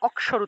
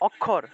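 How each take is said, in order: First: The middle cluster sounds like k followed by sh. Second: The middle cluster sounds like a doubled kh. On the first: This is the Sanskrit way of saying it. "কিন্তু তারা অক্ষর উচ্চারণ করে" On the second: This is the everyday Bengali way of saying it. "আমরা বলি মনে করি যে অক্ষর অক্ষর"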